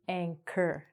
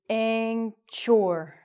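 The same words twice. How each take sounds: First: The middle consonant is a K sound. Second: The middle consonant is a CH sound. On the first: The speaker calls it right. "but it's actually anchor" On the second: The speaker calls it wrong. "we think it's anchor"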